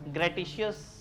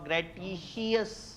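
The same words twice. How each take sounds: First: It is said in a British accent. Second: It is said in a Pakistani accent.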